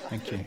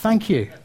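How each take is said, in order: First: It sounds cold and ungrateful. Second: It sounds warm and grateful. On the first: The gift is not appreciated at all. "The other one wasn't just a lack of gratitude. It was the reverse" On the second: The gift is truly appreciated. "The first was gratitude"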